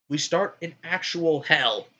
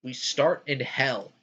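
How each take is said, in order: First: "actual" drawn out and higher, slow delivery; stress on ACTUAL. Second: Said in the usual way. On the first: Real, not acted. Restating where the game starts, slow heavy stress on "actual". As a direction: lean hard and slowly on "actual".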